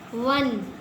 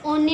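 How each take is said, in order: First: The word begins with a 'w' consonant sound. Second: The word begins with an 'o' vowel sound. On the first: The speaker calls it right. "इसको हमने शुरू से पढ़ा है ओ एन ई वन" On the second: The speaker calls it wrong. "अब इसको हम ओने नहीं पढ़ते हैं"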